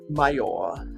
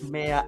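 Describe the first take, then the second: First: It is said with the American pronunciation. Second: It is said with the Australian pronunciation. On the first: "That's how they pronounce it in American English" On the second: "in Australia we do not pronounce mayor"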